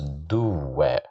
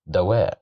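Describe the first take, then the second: First: The first vowel is an u sound. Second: The first vowel is an a sound. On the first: The speaker calls it wrong. "So we can't pronounce it as duwa" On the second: The speaker calls it right. "We pronounce it as da because of the fatha"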